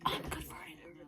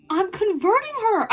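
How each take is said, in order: First: Very soft, voiceless whisper; hushed, barely-there confession; conspiratorial whisper. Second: High, excited squeal; high-pitched triumphant announcement; gleeful exclamation. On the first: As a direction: whisper it like a secret. Gleeful confession, whispered first. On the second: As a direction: burst out with it, high and delighted. Gleeful confession, repeated aloud. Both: Acted.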